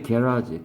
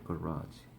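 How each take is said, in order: First: It is said with a British pronunciation. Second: It is said with an American pronunciation. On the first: "영국식 영어는 발음이 게라지" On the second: "미국식 영어는 발음이 액센트가 여기 있어가지고"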